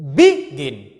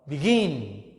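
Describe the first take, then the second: First: The stress is on the first syllable. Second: The stress is on the second syllable. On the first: The speaker calls it wrong. "You cannot say begin" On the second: The speaker calls it right. "So stress in the second syllable"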